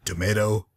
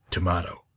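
First: "Tomato" with MAY in the middle; American pronunciation. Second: "tomato" with MAH in the middle; alternative pronunciation. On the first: Shrugging off pronunciation, "Tomato" said tuh-MAY-toe. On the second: Shrugging off pronunciation, "tomato" said tuh-MAH-toe. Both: Shown as a demonstration. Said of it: "Do you pronounce it".

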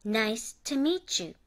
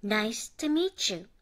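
First: Meet you blended into meetchu, slowly; linked chu, slow. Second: Meet you blended into meechu, slowly; slow linked Nice to meet you; linked chu, slow. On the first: Students repeat the teacher's slow meetchu. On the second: Teacher modelling meet you linked as meechu. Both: Shown as a demonstration. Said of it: "まとめて発音します".

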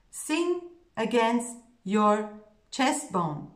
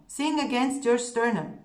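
First: Slow, every word "sing against your chest bone" spaced out; slow emphatic mantra. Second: Said in the usual way. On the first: Shown as a demonstration. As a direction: drill it in slowly. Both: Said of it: "the one thing I'm telling my students".

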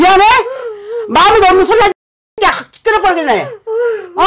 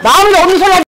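First: "마음에도 없는 소리 하지" spat out higher with a sob in it; angry scolding. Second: "마음에도 없는 소리 하지" thrown back higher, leaning on 마음에도; angry scolding. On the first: Shaman rebuking the husband for his fake apology, angry. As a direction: call the apology fake, half crying. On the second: Shaman throwing the husband's fake apology back at him, angry. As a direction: hammer the accusation home. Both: Acted.

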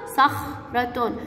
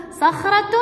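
First: "صخرة" split slowly into "صخ" and "رة"; very slow, broken-up "صخرة"; sounding out. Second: Said in the usual way. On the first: Shown as a demonstration. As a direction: pause after the خ in "صخرة". Same word then broken up slowly.

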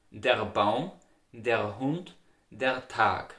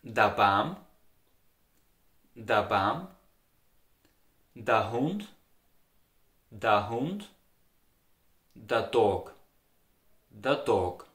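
First: "Der Baum, der Hund, der Tag" with a full standard "der"; standard German model. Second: Austrian "der" said as "da": da Baum, da Hund; slow, repeated Austrian dialect "da" forms. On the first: Teacher models standard words for learners to repeat. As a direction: model "der" cleanly for repetition. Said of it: "Repeat after me those words". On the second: Teacher drills Austrian dialect articles for learners. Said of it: "you would say". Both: Shown as a demonstration.

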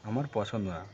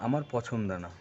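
The two takes are said the same way.

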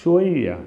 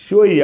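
First: Said in the usual way. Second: ഷ്വയ്യ said higher and louder, clipped fall; ഷ്വയ്യ said louder with a falling tune; emphatic repeat. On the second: Shown as a demonstration. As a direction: punch out ഷ്വയ്യ as a firm model word. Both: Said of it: "അറബികൾ എങ്ങനെയാ പറയാ?".

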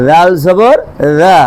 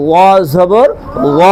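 First: Light open vowel in "লাল জবর রা"; thin Arabic Dhal. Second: Heavy, rounded vowel in "ল জবর ল"; heavy Arabic Za. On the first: (পাতলা করে "রা" উচ্চারণ) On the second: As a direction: say "ল" as a thick emphatic dh. (মোটা করে "ল" উচ্চারণ) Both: Shown as a demonstration. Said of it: "পার্থক্য আছে না নাই?".

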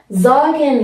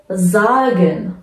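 First: زاگن with a clear z, a bit slow; voiced z. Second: زاگن slowly with a voiced z start. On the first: Teacher repeating sagen for learners. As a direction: say زاگن with z not s. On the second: Teacher showing the s read as z. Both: Shown as a demonstration. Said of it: "ز خونده بشه".

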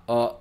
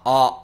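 First: "あ" as a short, half-open uh; "あ" like the vowel in English cup. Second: "あ" as a long open ah; "あ" like the vowel in English cop. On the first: Teacher contrasts two vowels, short uh. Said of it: "カップの方はあの音". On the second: Teacher contrasts two vowels, open ah. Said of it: "で、おまわりさんはあの音". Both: Shown as a demonstration.

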